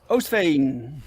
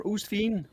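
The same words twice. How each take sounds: First: Oostveen said as OHST-vayn; "Oostveen" with long O and -vayn; first pronunciation attempt. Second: Oostveen said as OOST-feen; "Oostveen" with oo and ee vowels; alternative pronunciation. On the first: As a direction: say "Oostveen" as OHS-fayn, Dutch-style. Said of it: "or Oostveen". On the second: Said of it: "it's a Dutch sounding name". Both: Shown as a demonstration.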